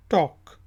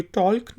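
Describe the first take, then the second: First: टॉक said with no L, just "tawk"; टॉक, L left silent. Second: टॉल्क said with the L sounded; टॉल्क with a clear L; wrong take with L. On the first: Teacher corrects it, टॉक with no L. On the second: Teacher shows the wrong way, टॉल्क with the L. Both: Shown as a demonstration. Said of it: "ये टॉल्क नहीं है".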